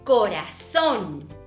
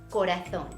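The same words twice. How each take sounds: First: The z is said like an s, Latin American-style. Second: The z is said with a th sound, Spain-style.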